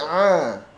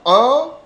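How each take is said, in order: First: The vowel sounds open and spread, like 'a'. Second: The vowel sounds rounded, like 'o'. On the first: The speaker calls it right. "Lidah terhampar, tapi a" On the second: The speaker calls it wrong. "tidak o"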